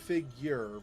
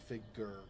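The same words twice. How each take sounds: First: It is said in an American accent. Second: It is said in a British accent. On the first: "we say figure" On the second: "British say figure"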